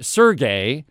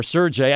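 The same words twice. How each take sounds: First: "Sergey" with a hard g, as in gay. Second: "Sergey" with a j sound, as in jay; soft g. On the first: Shopper recalling clerk's name, "Sergey" with hard g. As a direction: say "Sergey" ending like the word gay. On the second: Shopper unsure of clerk's name, "Sergey" with soft g. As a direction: say "Sergey" ending like the word jay. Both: Shown as a demonstration. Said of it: "I think it's Sergey".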